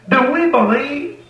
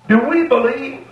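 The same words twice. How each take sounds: The two takes are said the same way.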